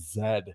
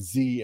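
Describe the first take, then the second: First: The letter is said the Canadian way, zed. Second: The letter is said the American way, zee.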